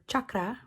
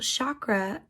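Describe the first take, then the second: First: It is said with a Sanskrit-like pronunciation. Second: It is said with an American English pronunciation. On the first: The speaker calls it right. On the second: The speaker calls it wrong.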